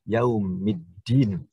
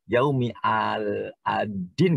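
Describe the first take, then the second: First: The L is silent and the D is doubled. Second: The article is said separately with a clear L. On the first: The speaker calls it right. "harus yaumiddin" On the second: The speaker calls it wrong. "Tidak boleh kita dibaca"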